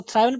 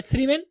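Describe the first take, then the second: First: थ्राइवन with a long eye sound; common mispronunciation. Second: थ्रीवन with thri, not thry; correct pronunciation. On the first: Teacher quoting how we misread it, thry-ven. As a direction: say थ्राइवन like thrive plus en. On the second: Teacher correcting the common error, thri-ven. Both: Shown as a demonstration. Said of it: "जो कि गलत है".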